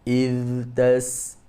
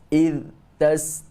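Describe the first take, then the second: First: The first word's final sound flows on softly. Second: The voice stops abruptly after the first word. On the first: The speaker calls it right. "kita baca yang betul macam mana? Iz" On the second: The speaker calls it wrong. "putus getah suara ... terhenti suara"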